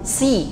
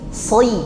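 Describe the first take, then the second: First: The consonant is thin, going straight to i. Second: The consonant is thick before gliding to i. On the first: It turns the letter into a different letter. The speaker calls it wrong. "Jangan langsung si ya" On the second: It keeps the intended letter distinct. The speaker calls it right. "Jadi tebal dulu, soi"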